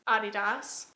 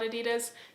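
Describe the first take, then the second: First: It is said the German way. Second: It is said the way other places say it. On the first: "apparently is the correct pronunciation because the founder is German" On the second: "in a lot of other places people call it Adidas"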